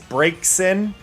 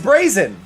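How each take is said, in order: First: It is said as two parts, brake then sin. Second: It is said as one word like brazen. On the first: This is the official pronunciation. "the official way is break sin, so break first and then sin for the second" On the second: This is the speaker's own pronunciation. "to me, it's brazen. Like I, it's a combination of Braze and Vixen"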